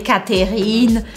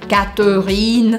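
First: The middle E is pronounced as a syllable. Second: The middle E is dropped almost entirely. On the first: The speaker calls it wrong. "eu não falei Catherine" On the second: The speaker calls it right. "Eu praticamente faço esse E do meio desaparecer"

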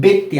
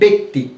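First: The first vowel sounds like 'e' in 'bet'. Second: The same.

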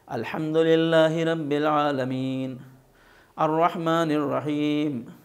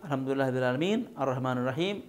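First: A breath pause separates the two verses. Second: The verses run together without a breath break.

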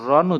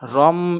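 First: The syllable ends with an n sound. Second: The syllable ends with an m sound. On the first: The speaker calls it wrong. "র দুই জবর রন উচ্চারণ হবে না" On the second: The speaker calls it right. "এখানে উচ্চারণ হবে রম"

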